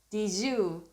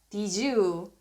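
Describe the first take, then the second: The two takes are said the same way.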